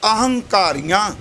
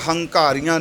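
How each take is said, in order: First: The word starts with an 'a' vowel before 'h'. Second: The word starts directly with an 'h' sound. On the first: The speaker calls it right. "ਐੜਾ ਅਗੇਤਰ ਲੱਗਾ" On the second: The speaker calls it wrong. "ਇਹਦਾ ਪਾਠ ਹੰਕਾਰੀਆਂ ਨਹੀਂ ਕਰਨਾ"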